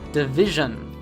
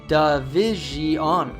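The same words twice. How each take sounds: First: The last syllable has a reduced schwa vowel. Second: The last syllable has a full, clear vowel. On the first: The speaker calls it right. "simply make a schwa sound for the vowels in the last syllable" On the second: The speaker calls it wrong. "Many learners will actually pronounce division, which is incorrect"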